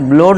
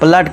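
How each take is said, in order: First: The vowel sounds like 'oh'. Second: The vowel sounds like 'uh'. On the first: The speaker calls it wrong. "इसे ब्लोड नहीं पढ़ेंगे" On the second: The speaker calls it right. "ब्लड कर देंगे"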